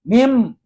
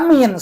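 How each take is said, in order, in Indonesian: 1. Kata itu berakhir dengan bunyi m. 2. Kata itu berakhir dengan bunyi n. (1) "Mim, jangan dibaca min" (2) "jangan dibaca min"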